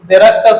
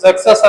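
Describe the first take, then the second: First: An r sound is pronounced in the middle. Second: No r sound is pronounced in the middle. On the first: The speaker calls it wrong. "Telugu పుస్తకాలలో ఇతన్ని జెరాక్సెస్ అని రాస్తారండి" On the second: The speaker calls it right. "ఆర్ అనే పదాన్ని silent చేసి చదవాలి"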